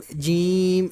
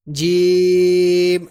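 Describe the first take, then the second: First: جیم with the sound pushed into the nose; nasal mistake. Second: جیم held long, kept out of the nose; not nasal. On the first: Teacher warning how not to read, nasal جیم. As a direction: nasalise the vowel of جیم as a faulty example. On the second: Teacher showing learners the letter, جیم without nasality. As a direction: stretch جیم slowly with an oral, un-nasal vowel. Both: Shown as a demonstration. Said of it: "آواز ناک میں نہیں لے کے جانی".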